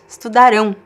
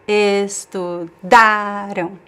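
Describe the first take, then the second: First: The stress is on the last syllable. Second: The stress is on the second-to-last syllable. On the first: The action will happen in the future. "we bring to the stress of the word to the end" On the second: The action happened in the past. "the stress is in the syllable, in the middle syllable, the second to last"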